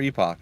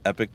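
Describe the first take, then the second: First: The word ends with an 'ock' sound. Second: The word ends with an 'ick' sound. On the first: The speaker calls it wrong. "but I prefer Epoch" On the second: The speaker calls it right. "it's actually pronounced Epic"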